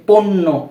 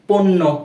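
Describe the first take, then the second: The two takes are said the same way.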